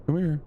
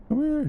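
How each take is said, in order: First: Calling from far away. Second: High, loud call across the water; calling from far away. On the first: Calling out to creature. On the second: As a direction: shout it out to someone distant. Calling out, much higher. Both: Real, not acted.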